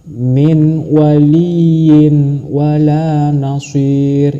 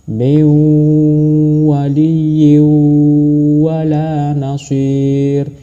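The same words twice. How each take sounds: First: The n is pronounced plainly with no nasal hum. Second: The n merges into the w with nasal hum. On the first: The speaker calls it wrong. "itu juga salah. Itu tidak berdengung, itu hanya membaca tanwin" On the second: The speaker calls it right. "cara membacanya seperti itu"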